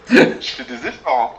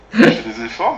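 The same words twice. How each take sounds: First: Straining. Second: Louder straining. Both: Real, not acted.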